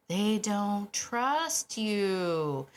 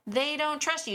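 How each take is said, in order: First: They don't trust you drawn out very slowly, flat and level; slow dramatic statement. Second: They don't trust you repeated higher, stress on trust; emphatic repeat. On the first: Trainer delivering the hard truth to owners, drawn out very slowly. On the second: Trainer repeating the hard truth to owners, higher and insistent. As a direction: hit trust again, pitched up and insistent. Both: Shown as a demonstration.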